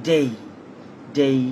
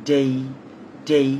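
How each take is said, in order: No difference in how they are said.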